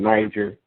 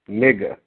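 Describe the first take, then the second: First: The word is said as the country name. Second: The word is said like the slur. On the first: The speaker calls it right. "That's how you pronounce it" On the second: The speaker calls it wrong. "the girl was like"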